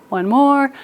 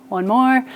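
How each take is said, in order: No difference in how they are said.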